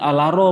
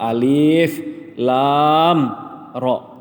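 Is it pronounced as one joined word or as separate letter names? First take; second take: one word; separate letters. First: The letters are run together into one word. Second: Each letter name is said separately, one by one. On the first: The speaker calls it wrong. "Iko itu bukan alaro bacanya" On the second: The speaker calls it right. "Huruf yang dibacanya kita potong-potong"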